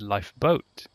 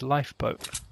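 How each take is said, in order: First: The stress is on the second part, boat. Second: The stress is on the first part, life. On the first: The speaker calls it wrong. "then people would look at you funny" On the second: The speaker calls it right. "Where you emphasise life and not boat"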